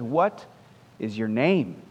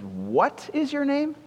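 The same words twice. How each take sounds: First: Said in the usual way. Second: Higher, slow and drawn out, mildly exasperated; frustrated. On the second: A narrator's reading. Alexander demanding the soldier's name again, mildly frustrated. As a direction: press the question, a touch fed up.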